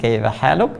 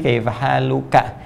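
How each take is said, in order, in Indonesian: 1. Kata terakhir berakhir pada konsonan mati. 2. Kata terakhir berakhir dengan vokal pendek. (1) "karena ujungnya dibaca mati" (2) "Kalau laki-laki"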